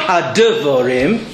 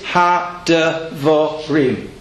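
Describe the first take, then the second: First: The short second syllable carries stress. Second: The short second syllable carries no stress. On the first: The speaker calls it wrong. "It's not had-devorim" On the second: The speaker calls it right. "And there's no stress"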